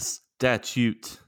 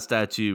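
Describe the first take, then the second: First: The word ends with a t sound. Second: The word ends without a t sound. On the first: The speaker calls it right. "A statute with a T" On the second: The speaker calls it wrong. "not a statue"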